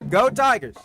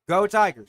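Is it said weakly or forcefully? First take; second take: forcefully; weakly. First: It is said forcefully, deep from the chest. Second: It is said weakly, without much energy.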